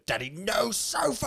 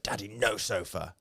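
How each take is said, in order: First: Put-on high, slow little-girl whine; imitating his little daughter refusing the sofa; toddler voice. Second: Said in the usual way. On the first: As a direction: squeak it out like a small stubborn toddler. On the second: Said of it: "and she went".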